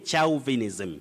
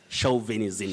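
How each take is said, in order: First: The first syllable does not sound like 'show'. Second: The first syllable sounds like 'show'. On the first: The speaker calls it wrong. "Don't say chauvinism" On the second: The speaker calls it right. "Say show, chauvinism"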